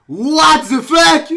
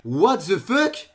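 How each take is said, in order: First: High, very loud, drawn-out yell; explode, stretching out each word; shocked yell. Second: Drawn-out, rising question; puzzled disbelief. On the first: Reacting to too-fast solves, shocked yell. Repeats it as a scream. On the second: Reacting to too-fast solves, puzzled disbelief. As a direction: stretch it slowly into a baffled question. First, held-back disbelief before shouting it. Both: Real, not acted.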